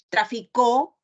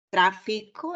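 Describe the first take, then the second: First: Tráfico with stress moved to the last syllable, CÓ; aguda stress. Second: Tráfico stressed on the first syllable, TRÁ; esdrújula stress. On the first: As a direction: say tráfico as tra-fi-CÓ. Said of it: "como una palabra aguda". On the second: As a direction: hit TRÁ at the start of Tráfico. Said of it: "como una esdrújula". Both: Shown as a demonstration.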